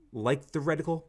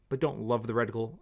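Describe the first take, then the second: First: Like with a gentle rise in pitch; stress on like. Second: Don't hit firmly, the rest settles down; stress on don't. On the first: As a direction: lift the word like, a touch higher. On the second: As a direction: punch the word don't in don't love. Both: Real, not acted. Contrasting like with love.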